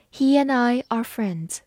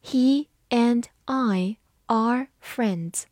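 First: Said in the usual way. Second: Slow, word by word; deliberate teacher demo at half speed; slow reading. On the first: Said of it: "慢慢来读一遍". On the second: Shown as a demonstration. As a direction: read it slowly, pausing between words. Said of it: "我们慢慢来读一遍".

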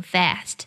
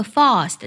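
First: "fast" with an American front a, as in cat; American pronunciation. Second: "fast" with a British long ah; British pronunciation. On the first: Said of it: "我唱的是比较偏美音的". (美音“fast”，元音同cat) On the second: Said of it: "会将英音当中的fast唱成". (英音“fast”，元音读长a) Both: Shown as a demonstration.

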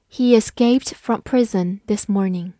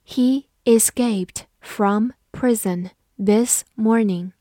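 First: Said in the usual way. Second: Slow, deliberate sentence model; slow teacher read-aloud. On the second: Shown as a demonstration. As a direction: read it slowly word by word. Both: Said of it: "好，慢读一遍".

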